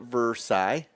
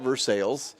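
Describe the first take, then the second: First: It is said the standard, usual way. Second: It is said the local Missouri way. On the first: The speaker calls it right. "If you look at Versailles" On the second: The speaker calls it wrong. "we call it Versailles"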